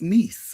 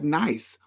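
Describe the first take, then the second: First: The word is said with French pronunciation. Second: The word is said as the English word. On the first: It is the name as said locally. "but it's pronounced Nice" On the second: It is read as an English word. "Spelled like nice"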